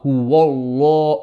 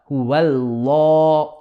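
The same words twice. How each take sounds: First: The w sound is heavy and thick. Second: The w sound is light and flat. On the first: The speaker calls it wrong. "not huwallah" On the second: The speaker calls it right. "Only the lam of the word Allah will become heavy"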